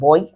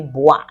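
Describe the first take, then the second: First: The vowel is said as 'oy'. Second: The vowel is said as 'wa'. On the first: The speaker calls it wrong. "and not boy" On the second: The speaker calls it right. "O I in French sounds oa. That's why we say bois"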